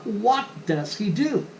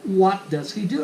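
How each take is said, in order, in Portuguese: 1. O t e o d são pronunciados de forma nítida e separada. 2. O t e o d viram um r brando e batido. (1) "ao invés de falar" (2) "eles vão valer por um R brando"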